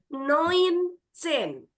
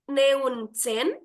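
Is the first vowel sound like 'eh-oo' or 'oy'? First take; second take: oy; eh-oo. First: The first vowel sounds like 'oy'. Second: The first vowel sounds like 'eh-oo'. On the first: The speaker calls it right. "E U dalam bahasa Jerman dibacanya jadi O I" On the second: The speaker calls it wrong. "bukan Neunzehn"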